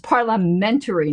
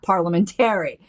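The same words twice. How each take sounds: First: The stress is on the syllable men. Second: The stress is on the syllable tar. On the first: The speaker calls it right. "the emphasis isn't on tear, it's on men" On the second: The speaker calls it wrong. "I used to say parliamentary"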